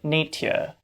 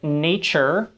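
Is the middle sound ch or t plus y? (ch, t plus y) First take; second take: t plus y; ch. First: The middle has a t followed by y. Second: The middle has a merged ch sound. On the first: This is an older pronunciation. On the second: This is the modern pronunciation.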